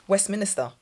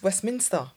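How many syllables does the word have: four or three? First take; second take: four; three. First: The word has an extra syllable in the middle. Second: The word has no extra middle syllable. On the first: The speaker calls it wrong. "I used to always say Westminster" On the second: The speaker calls it right. "It's Westminster. There's no extra I"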